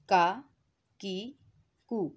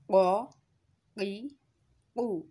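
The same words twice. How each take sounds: First: का की कु light and thin, from the hard palate; का की कु said fine and light; thin kaaf. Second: क़ क़ी क़ु thick and full, from the back; full thick qaaf. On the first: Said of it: "इसको हम बारीक अदा करेंगे". (का की कु बारीक) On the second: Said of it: "पुर और मोटा अदा हो रहा है". (क़ क़ी क़ु पुर और मोटा) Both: Shown as a demonstration.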